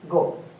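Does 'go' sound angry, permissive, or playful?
permissive. It is said calmly, as gentle permission. You are allowed to leave. "Here go means permission"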